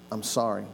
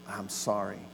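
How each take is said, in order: First: Said in the usual way. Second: Soft, lower, heartfelt 'sorry'; sincere apology. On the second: Shown as a demonstration. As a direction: say it like you truly mean it. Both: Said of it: "what I meant to say was".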